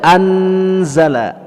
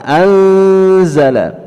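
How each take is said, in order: First: The n is pronounced clearly and distinctly. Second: The n is a faint, blurred nasal hum. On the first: The speaker calls it wrong. "tidak dibaca anzala, anzala, itu izhar jadinya" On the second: The speaker calls it right. "nun matinya kita samar-samarkan"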